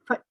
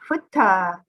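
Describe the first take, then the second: First: The final t ends cleanly with no vowel. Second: The final t is followed by an uh vowel. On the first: The speaker calls it right. "we want to say foot" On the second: The speaker calls it wrong. "We do not want to say footta"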